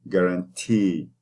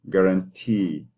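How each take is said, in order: No difference in how they are said.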